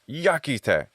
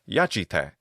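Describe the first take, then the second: First: The middle consonant is a k sound. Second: The middle consonant is a ch sound. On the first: This is the older classical pronunciation. "in classical Latin ... the pronunciation is yakite" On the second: This is the later church pronunciation. "In ecclesiastical pronunciation, the word is yachite"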